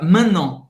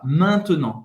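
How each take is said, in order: First: The middle syllable is cut out. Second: The middle syllable is fully pronounced. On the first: "Muitos franceses cortam também essa sílaba e fica" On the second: "para falar"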